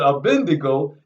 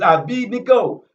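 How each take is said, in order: First: The n sound comes before the d. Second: The d sound comes before the n. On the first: This is how others chose to say it. The speaker calls it wrong. "they wanted to pronounce it Abendigo" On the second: This is how the name is truly said. The speaker calls it right. "is how his name is pronounced"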